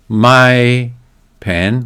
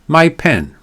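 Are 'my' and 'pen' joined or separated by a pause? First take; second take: separated; joined. First: The two words are separated by a break. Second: The two words run together as one unit. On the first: The speaker calls it wrong. "we don't say my pen" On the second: The speaker calls it right. "we say my pen"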